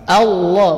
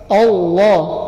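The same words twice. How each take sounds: First: The opening hamzah sounds thin and light. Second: The opening hamzah sounds thick and heavy. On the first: The speaker calls it right. "hamzahnya kata beliau dibaca tipis" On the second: The speaker calls it wrong. "bukan Allah"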